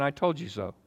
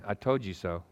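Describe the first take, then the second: First: Mock smug told-you-so; preacher mocking a scolding God; smug taunt. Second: Preacher repeating the imagined scolding; quiet smug taunt. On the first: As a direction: sneer it like a petty god. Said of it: "That's what we think God does". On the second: Retold or imitated. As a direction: lower softer told-you-so. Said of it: "here's what you think God's saying".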